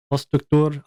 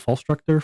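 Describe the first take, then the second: First: "Struktur" in a put-on foreign accent, ending like "toor"; weird accent. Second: Said in the usual way. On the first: Shown as a demonstration. Streamer settling on a title's pronunciation, weird accent on "Struktur". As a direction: give "Struktur" a weird accent with a long final oo. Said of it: "I'll say it with that weird accent". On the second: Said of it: "I don't know how to say that".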